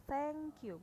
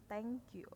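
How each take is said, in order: First: Higher, clearly modelled "thank you" with th; correct "thank you". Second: "thank you" with a hard t at the start; softer throwaway "thank you" with plain t; wrong "thank you". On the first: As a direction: say "thank you" with the tongue-between-teeth th. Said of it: "bacanya adalah "thank you". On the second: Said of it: "bukan "thank you". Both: Shown as a demonstration.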